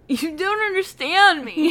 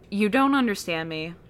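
First: It is read in a smug, mocking put-on manner. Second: It is read in a plain, straightforward manner. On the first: "Read it like a douchebag" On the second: "I can't read it like that"

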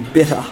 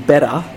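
First: The first vowel sounds like the i in bit. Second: The first vowel sounds like the e in bet. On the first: "In New Zealand, it would be bitter" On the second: "In Australia, it would be better"

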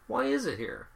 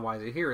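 First: It sounds excited and intrigued. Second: It sounds annoyed and exasperated.

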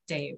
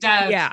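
First: The vowel sounds close to the 'ay' in 'day'. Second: The vowel sounds like the short 'e' in 'bed'. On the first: This is the non-anglicized form of the name. The speaker calls it right. "But it is pronounced, Dave" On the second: This is the anglicized form of the name. The speaker calls it wrong. "Dev is like an anglicized version of the name"

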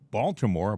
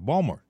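First: The name is said in full with a T. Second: The name is shortened with no T sound.

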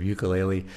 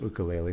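First: The word has an American Chicago pronunciation. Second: The word has a Hawaiian pronunciation. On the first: The speaker calls it wrong. "with my Chicago accent of ukulele" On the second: The speaker calls it right. "the correct pronunciation is ukulele"

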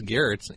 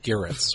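First: The name is said with one syllable. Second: The name is said with two syllables. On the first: The speaker calls it right. "It's German. It's one syllable" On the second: The speaker calls it wrong. "people often mispronounce my name and make it sound like something like Garrett's, which does rhyme with carrots"

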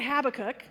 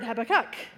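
First: The stress is on the first syllable. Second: The stress is on the third syllable. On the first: "with the emphasis on the hab" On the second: "other people emphasize the third"

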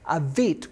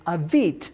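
First: The word ends in a hard 't' sound. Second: The word ends in a hard 't' sound.

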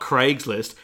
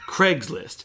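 First: The word is pronounced plainly, as it is spelled. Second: The word is pronounced in a mock American accent. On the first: "Heaven forbid you should say the word the way it's spelled" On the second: "specific regional pronunciations"

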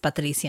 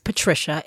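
First: The name is said with a Spanish pronunciation. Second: The name is said with an English pronunciation. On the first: "Patricia in Spanish" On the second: "Patricia in English"

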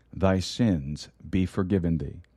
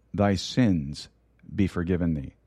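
Both takes have the same delivery.

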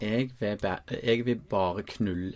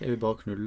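First: It is said with a Southern Norwegian accent. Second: It is said with a Stavanger accent. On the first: The speaker calls it wrong. "Nei, det blir sørlandsk" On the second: The speaker calls it right. "du er så inne"

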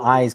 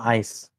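First: The word ends with a buzzing z sound. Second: The word ends with a hissing s sound. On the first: The speaker calls it wrong. "Don't call them eyes" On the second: The speaker calls it right. "Call them ice"

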